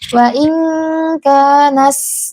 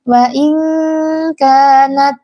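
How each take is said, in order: First: The final t hisses like an s sound. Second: The final t has a light breath after it. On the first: The speaker calls it wrong. "itu berlebihan hamasnya" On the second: The speaker calls it right. "tapi biasa saja"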